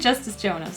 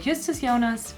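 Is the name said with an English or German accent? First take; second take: English; German. First: The name is said with an English accent. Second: The name is said with a German accent.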